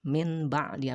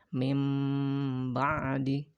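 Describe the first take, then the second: First: The first word ends in a short n sound. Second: The first word ends in a held m sound. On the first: The speaker calls it wrong. "dibacanya bukan min ba'di" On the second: The speaker calls it right. "diganti menjadi huruf berbunyi huruf mim"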